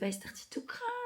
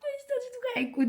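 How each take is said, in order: First: Said in the usual way. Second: High, breaking sob-voice re-enacting the tears; acted crying. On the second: Telling viewers about the positive test, high crying voice. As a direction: let the voice crack up high as if crying again.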